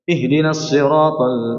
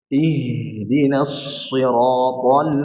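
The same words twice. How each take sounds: First: The h is clipped with little breath flowing. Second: The h is breathy with air flowing fully. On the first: The speaker calls it wrong. "itu kurang ini. Itu tidak ada sifat uh, apa hamz dan tidak ada sifat rohwahnya" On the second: The speaker calls it right. "ha ini dialirkan dengan sempurna"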